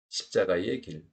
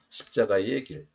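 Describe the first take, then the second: First: The particle 의 is pronounced as a shortened vowel. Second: The same.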